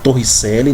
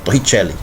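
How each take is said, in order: First: The name is read the Portuguese way. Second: The name is said the Italian way. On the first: "Se escreve Torricelli" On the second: "você tem que pronunciar italiano"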